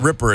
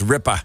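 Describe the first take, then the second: First: The r sounds are fully pronounced. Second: The final r is dropped, Boston style. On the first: The speaker calls it wrong. "Not ripper" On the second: The speaker calls it right. "It's ripper"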